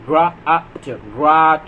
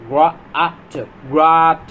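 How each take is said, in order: Both takes have the same delivery.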